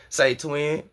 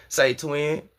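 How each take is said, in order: No difference in how they are said.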